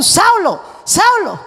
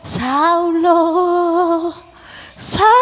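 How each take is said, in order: First: It is shouted loudly. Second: It is said calmly, without shouting.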